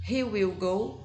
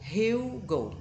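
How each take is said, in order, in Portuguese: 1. 'Will' é dito como uma palavra separada e completa. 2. 'Will' é encurtado e unido ao he.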